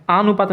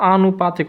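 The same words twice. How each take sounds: First: आनुपातिक said quickly as the mistaken form; wrong pronunciation. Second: आनुपातिक with a long opening आ; correct pronunciation. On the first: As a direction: give आनुपातिक as the form to reject. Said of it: "आनुपातिक नहीं होता". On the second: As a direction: open आनुपातिक on a clear long आ. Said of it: "आनुपातिक होता है". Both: Shown as a demonstration.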